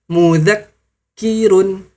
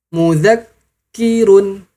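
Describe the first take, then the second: No difference in how they are said.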